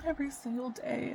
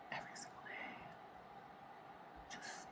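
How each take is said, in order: First: Said in the usual way. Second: Much softer, breathed-out "Every single day"; a spent, whispered echo of the line. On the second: Real, not acted. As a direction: let it fade to a hushed whisper. Repeats phrase, second time whispered.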